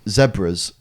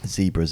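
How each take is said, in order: First: The word is said the non-American way. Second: The word is said the American way.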